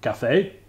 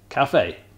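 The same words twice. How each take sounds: First: The voice rises at the end, like a question. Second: The voice falls at the end, like a statement.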